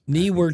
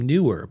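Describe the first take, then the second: First: The first syllable sounds like 'knee'. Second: The first syllable sounds like 'new'. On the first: The speaker calls it right. "but it's Knee" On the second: The speaker calls it wrong. "I used to call them Newer"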